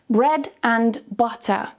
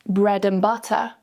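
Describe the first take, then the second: First: Said slowly, and is full with a clear d. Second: Said quickly, and shrinks to a weak un. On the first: "slowly with the strong form" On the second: "quickly with the weak form"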